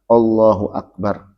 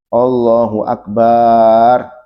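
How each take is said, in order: First: Akbar is said plainly, with nothing lengthened. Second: The ba syllable of akbar is drawn out long. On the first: The speaker calls it right. "harus jelas mengucapkan akbar" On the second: The speaker calls it wrong. "baknya nggak boleh dipanjangkan. ... Nggak boleh panjang baknya"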